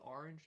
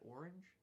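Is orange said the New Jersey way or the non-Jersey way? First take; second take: New Jersey; non-Jersey. First: The word has a New Jersey pronunciation. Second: The word has a non-Jersey pronunciation. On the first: "I call it orange" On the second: "not orange"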